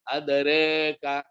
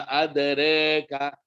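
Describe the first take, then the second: Both takes have the same delivery.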